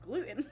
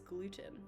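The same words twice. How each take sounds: First: The t sound in the middle is dropped. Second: The t sound in the middle is clearly pronounced. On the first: "in my accent it's just gluten" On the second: "I have to pronounce it with the T"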